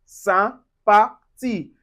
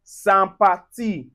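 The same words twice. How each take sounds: First: Sympathie slowly, nasal first vowel. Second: Sympathie with nasal first vowel; French sympathie. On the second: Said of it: "we also have sympathie". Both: Shown as a demonstration.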